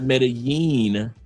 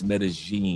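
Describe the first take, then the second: First: The double L sounds like a Y. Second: The double L sounds like a G. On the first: The speaker calls it wrong. "It's not Medellin, even though in certain Spanishes, yes, two L's make a Y sound" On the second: The speaker calls it right. "Two L's make a G sound. ... in Colombia, it's Medellin"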